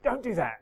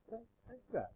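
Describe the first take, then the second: First: It is said in a stern, scolding tone. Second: It is said in a soft, caring tone. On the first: The listener is being told off for misbehaving. "that's one tone of voice, as if like he's being naughty" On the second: The listener is being cared for, not told off. "or there's kind of"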